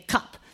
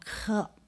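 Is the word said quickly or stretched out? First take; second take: quickly; stretched out. First: The word is said at normal quick speed. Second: The word is stretched out slowly.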